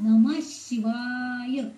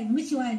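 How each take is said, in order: First: The final syllable is drawn out long. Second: The final syllable is cut short. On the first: The speaker calls it right. "शिवाय वाय असं आपण म्हणायचं" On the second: The speaker calls it wrong. "नमः शिवाय करायचं नाही"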